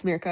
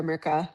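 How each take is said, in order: First: "Mirka" said with an ee-like first vowel, MEER-ka; "Mirka", first syllable like "meer"; alternative pronunciation. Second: "Mirka" said with a short, r-coloured first vowel, MUR-ka; "Mirka", first syllable like "murr"; alternative pronunciation. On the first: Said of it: "I'm not positive if it's". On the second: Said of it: "Mirka or Mirka". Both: Shown as a demonstration.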